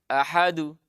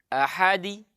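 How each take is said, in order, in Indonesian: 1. Pantulan akhir condong ke vokal u. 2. Pantulan akhir condong ke vokal i. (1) "terpantul ke dhamma" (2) "miring ke kasrah"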